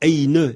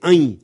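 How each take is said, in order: First: It ends with an audible n sound. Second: It ends in a nasal vowel with no n. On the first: The speaker calls it wrong. "et non pas « eine »" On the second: The speaker calls it right. "le tilde indique qu'on ne prononce pas le « n »"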